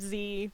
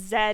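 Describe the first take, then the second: First: The letter is said in a non-British way. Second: The letter is said in a British way. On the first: This is the speaker's own usual way. "instead of Z" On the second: This is how a friend with a British accent says it. "whenever she says Z"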